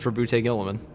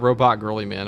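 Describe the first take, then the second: First: The first name ends in a 'boot' sound. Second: The first name sounds like the word 'robot'. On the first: The speaker calls it right. "That's how it's pronounced" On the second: The speaker calls it wrong. "It's not Robot Girly Man"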